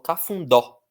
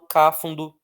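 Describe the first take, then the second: First: The stress is on the last syllable. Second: The stress is not on the last syllable. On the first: The speaker calls it right. "Então a força está no dó" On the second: The speaker calls it wrong. "Eu não falo cáfundo"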